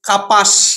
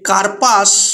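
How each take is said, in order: First: No r sound is heard before the p. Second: An r sound is heard before the p. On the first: "অনেক সময় আমরা উচ্চারণ করি কাপাস" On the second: "এই কার্পাস"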